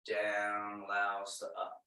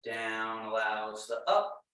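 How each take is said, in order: First: Soft lower repeat. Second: Said in the usual way. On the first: Shown as a demonstration. Instructor repeats the principle to the class, lower and softer. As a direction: lower and softer, letting the words settle down. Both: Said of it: "Emphasis on down".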